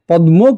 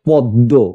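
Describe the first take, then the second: First: The middle cluster is pronounced as 'dm'. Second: The middle cluster is pronounced as double 'dd'. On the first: The speaker calls it wrong. "পদ্ম কেউ বলি না" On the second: The speaker calls it right. "উচ্চারণ কি করছি পদ্ম, প দয় দয়"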